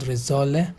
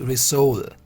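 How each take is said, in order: First: The last syllable does not sound like soul. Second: The last syllable sounds like soul. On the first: The speaker calls it wrong. "It's not risole" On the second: The speaker calls it right. "this is risol. री and आत्मा, सोल"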